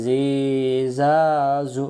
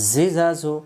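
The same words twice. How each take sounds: First: জিজাজু stretched out slowly, each vowel dragged; wrong drawn-out reading. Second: জিজাজু said briskly, short vowels, no stretching; quick short vowels. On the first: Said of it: "তাহলে পড়া সহিহ হবে না". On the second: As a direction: snap জিজাজু out quickly and cleanly. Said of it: "হারকাতের উচ্চারণ তাড়াতাড়ি পড়তে হয়". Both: Shown as a demonstration.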